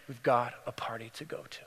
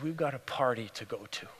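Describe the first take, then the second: First: Low, breath-only whisper; tender whisper. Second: Low, hushed but voiced; tender. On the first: Acted. Father repeating it to his daughter, whispered tenderly. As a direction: whisper it to her like a loving secret. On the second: Father to his daughter come home, tender. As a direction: tell her gently, voice kept low.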